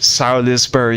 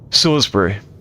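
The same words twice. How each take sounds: First: It is said with an American pronunciation. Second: It is said with a British pronunciation. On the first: The speaker calls it wrong. "is how the Americans say it" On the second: The speaker calls it right. "but it's actually Salisbury"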